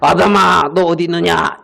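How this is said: It sounds angry and threatening.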